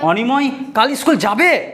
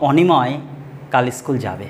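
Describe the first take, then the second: First: It is said with a questioning tune. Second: It is said as a plain statement. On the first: Asks whether someone will go to school tomorrow. "অর্থাৎ আমি question করছি" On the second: Someone will go to school tomorrow. "সোজা কথা বললাম"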